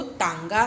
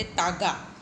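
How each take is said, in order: First: तांगा with nasal आं before the ग; nasal vowel demo. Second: Said in the usual way. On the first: Shown as a demonstration. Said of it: "चंद्र बिंदु लगने के बाद इसको तांगा कहा". (तांगा, ता के बाद हल्का न) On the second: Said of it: "अगर चंद्र बिंदु नहीं होता तो हम बोलते".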